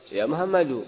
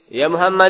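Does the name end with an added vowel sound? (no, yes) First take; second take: yes; no. First: The name ends with a final u vowel. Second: The name ends on the consonant d. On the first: The speaker calls it right. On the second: The speaker calls it wrong. "Ya Muhammad atau ya Muhammadu?"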